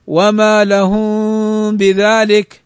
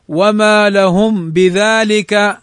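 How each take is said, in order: First: Slow recitation with the م of لهم hidden in a nasal hum; in "لهم بذلك" let the م melt into a hum before ب; hidden meem. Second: Slow recitation with the م of لهم closed and clearly heard; clear meem. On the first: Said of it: "الإخفاء". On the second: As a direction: say "لهم" with a distinct م, then بذلك. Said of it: "ويجوز الإظهار". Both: Shown as a demonstration.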